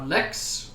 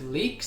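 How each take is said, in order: First: The vowel is short, like in lick. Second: The vowel is long, like in leak. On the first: "is called uh, Lix" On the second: "I like to pronounce it Leaks"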